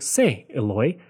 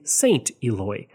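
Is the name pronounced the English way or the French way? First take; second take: French; English. First: The name is said with French pronunciation. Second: The name is said with English pronunciation. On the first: The speaker calls it right. "I want to make sure I say it properly" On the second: The speaker calls it wrong. "my natural English pronunciation wants me to say"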